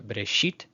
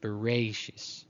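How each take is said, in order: First: The second vowel is a plain, pure e. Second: The second vowel glides like ei. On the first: "we would say uh, Bereshit"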